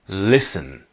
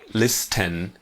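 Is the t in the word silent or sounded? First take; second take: silent; sounded. First: The word is said without a t sound. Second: The word is said with a t sound. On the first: The speaker calls it right. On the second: The speaker calls it wrong.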